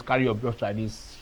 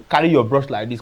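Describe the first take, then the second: First: Soft echo of the instruction, much quieter; quieter repeat. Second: Said in the usual way. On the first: Shown as a demonstration. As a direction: drop the voice for the repeat. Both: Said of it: "I don't usually come and tell you".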